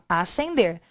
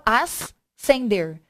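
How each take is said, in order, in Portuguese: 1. O 'sc' é dito como um s simples. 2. O 'sc' é pronunciado como um som separado. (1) "eu falo acender" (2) "a pronúncia eu não falo ascender"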